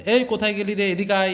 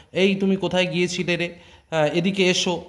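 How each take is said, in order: First: Lightly voiced village Bengali call, a touch higher; rural Bengali twang. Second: Lightly voiced refined standard Bengali call; polite standard Bengali. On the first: Teacher shows students the home village Bengali twang. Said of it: "এরকম একটা টান আছে". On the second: Teacher contrasts the outdoor standard Bengali manner. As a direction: ask politely in proper city Bengali. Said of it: "টান কিন্তু কথার অন্যরকম". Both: Shown as a demonstration.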